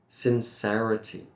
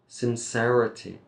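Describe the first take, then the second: The two takes are said the same way.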